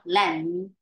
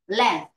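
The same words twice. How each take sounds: First: The word is drawn out and held long. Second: The word is said briefly and strongly. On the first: The speaker calls it wrong. "not length" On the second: The speaker calls it right. "Be decisive and be brief"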